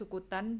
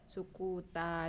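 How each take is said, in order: First: The word ends with an n sound. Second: The word ends with a long a vowel. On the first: This is the underlying form with tanwin. "aslinya sukutan" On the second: This is how it is read in the verse. "tapi dibacanya sukuta jadi alif jadi mat"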